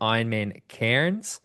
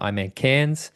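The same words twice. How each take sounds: First: Cairns is said in an American accent. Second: Cairns is said in an Australian accent.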